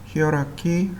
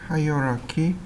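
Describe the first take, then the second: First: The first syllable sounds like 'hee'. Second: The first syllable sounds like 'high'. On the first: "히어라키 또는 하이어라키 이렇게 두 가지 발음으로 불립니다" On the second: "히어라키 또는 하이어라키 이렇게 두 가지 발음으로 불립니다"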